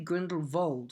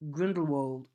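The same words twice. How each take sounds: First: The last syllable begins with a V sound. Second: The last syllable begins with a W sound.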